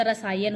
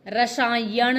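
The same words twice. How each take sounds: First: रसायन ending in dental n; correct nasal. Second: रसायन ending in retroflex ण; wrong nasal. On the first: Teacher correcting the error, रसायन with plain n. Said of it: "रसायन होता है". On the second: Teacher showing the error, रसायन with final retroflex ण. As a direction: say रसायन as "rasaayaṇ". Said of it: "रसायन नहीं होता". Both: Shown as a demonstration.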